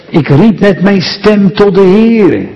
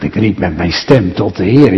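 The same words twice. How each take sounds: First: Said in the usual way. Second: Lower, softer, wondering repeat of the verse; a listener's mild, quiet puzzlement; puzzled listener. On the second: Retold or imitated. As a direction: echo it like a doubtful listener. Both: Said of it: "U zegt".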